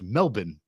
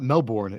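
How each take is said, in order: First: It is pronounced the way locals say it. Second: It is pronounced the way it is spelled. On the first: The speaker calls it right. "That's how they pronounce it" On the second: The speaker calls it wrong. "it's not Melbourne"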